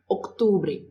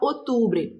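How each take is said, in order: First: A light C sound comes before the T. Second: The word is said without a C sound. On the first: The speaker calls it right. "Tem que fazer esse C. Ele é fraquinho, mas ele tá ali" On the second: The speaker calls it wrong. "Não pode falar outubro"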